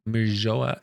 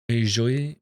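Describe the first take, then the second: First: "Merijoa" ending "jo-ah", questioning rise; alternative pronunciation. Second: "Merijoy" with a questioning rise on "joy"; trying a pronunciation. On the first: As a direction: test out "Merijoa" with a split final vowel. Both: Real, not acted. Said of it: "I don't know how to say that".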